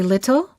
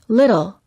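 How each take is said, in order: First: The middle T is a clear, crisp T. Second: The middle T is a quick D sound. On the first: The speaker calls it wrong. "We don't say" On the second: The speaker calls it right. "we say"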